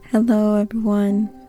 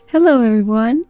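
First: The greeting is said flatly, with low energy. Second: The greeting is said with lively, high energy.

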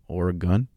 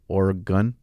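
First: The last syllable sounds like 'gun'. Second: The last syllable sounds like 'gun'.

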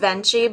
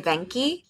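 First: The name is pronounced the American way. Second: The name is pronounced the Italian way. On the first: "the American way is Venci" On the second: "the Italian way would be Venki"

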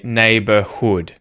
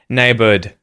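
First: The last vowel is kept as a full vowel. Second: The last vowel is reduced to a schwa. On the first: The speaker calls it right. "You say neighborhood" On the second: The speaker calls it wrong. "you don't say neighbored"

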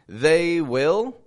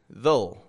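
First: Two separate words, sounding choppy. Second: One contracted word, flowing smoothly. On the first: The speaker calls it wrong. "It's a little choppy" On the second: The speaker calls it right. "Flows very nicely"

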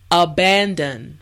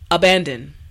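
First: The word is said slowly and carefully. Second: The word is said at normal speed. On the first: "repeat after me" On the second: "now let's say it at a normal pace"

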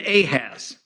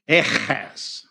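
First: The name is said with an English pronunciation. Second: The name is said with a non-English pronunciation. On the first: "that's how we pronounce it in English" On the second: "it calls him Ahaz"

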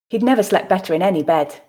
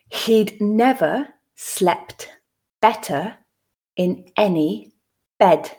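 First: The sentence is said at natural speed. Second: The sentence is said slowly. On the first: "two more times at a more natural pace" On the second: "the first time slowly for you to grasp the meaning"

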